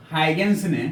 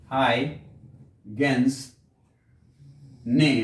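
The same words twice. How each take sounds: First: Said in the usual way. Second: "Huygens ने" very slow, split by long pauses; slow dictation. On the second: Real, not acted. Teacher dictating "Huygens ने" for students to write, slow and broken up. Same words dictated slowly for writing.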